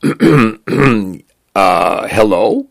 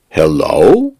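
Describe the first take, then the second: First: Tentative, higher-pitched hello with a questioning rise; mildly wary greeting, lifted at the end; hesitant reply. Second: Drawn-out hello with a steep rising lilt; creature's sing-song greeting; sing-song chirp. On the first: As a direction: answer uncertainly after clearing your throat. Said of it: "He cleared his throat". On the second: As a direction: chirp HELLO as a musical question, swooping up at the end. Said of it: "chirruped a sing-song voice". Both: A narrator's reading.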